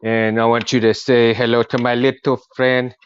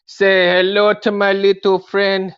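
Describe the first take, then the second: First: Said in the usual way. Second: Slow, high, loud gangster line; movie quote. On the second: Acted. Introducing his toy to viewers, slow and loud. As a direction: boom it out like the film.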